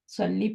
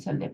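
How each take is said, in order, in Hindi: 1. शब्द लंबे 'ee' स्वर पर खत्म होता है। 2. शब्द छोटे 'eh' स्वर पर खत्म होता है। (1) "सल्ली पढ़ना चाहिए" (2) "सल्ले पढ़ते हैं, तो वो गलत है"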